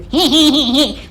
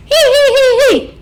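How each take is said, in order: First: Little tittering giggle, higher; demo giggle. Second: Shrill high hee-hee laugh, much higher and louder; high squeal of a laugh shown as another way; demo high laugh. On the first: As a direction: giggle as a demonstration. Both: Shown as a demonstration. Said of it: "laugh like this".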